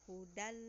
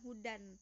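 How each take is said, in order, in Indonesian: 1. Kata ini berakhir dengan bunyi l. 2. Kata ini berakhir dengan bunyi n. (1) "tapi menjadi huruf lam" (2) "jangan hudan"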